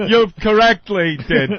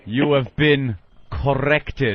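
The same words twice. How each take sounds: First: Higher, shaky botched catchphrase; mock-nervous, tongue-tied delivery; nervous fumbling. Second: Slow, deliberate pronouncement; drawn-out action-hero line; cool catchphrase. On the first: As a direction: flub the tough line with nerves. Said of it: "I might be shaking". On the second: Acted. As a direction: deliver it like a measured tough-guy one-liner. Delivers the catchphrase as tough gunman.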